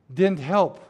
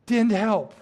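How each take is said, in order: First: "didn't" pressed with a rising end; preacher dismissing the empty tomb, stress on didn't. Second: "didn't" hit higher with a falling, final end; preacher dismissing the angels, stress on didn't. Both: Shown as a demonstration. Stress on didn't.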